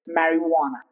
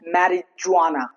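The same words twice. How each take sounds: First: The middle consonant is an H sound. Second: The middle consonant is a J sound. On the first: The speaker calls it right. "it's marijuana" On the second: The speaker calls it wrong. "It's not marijuana"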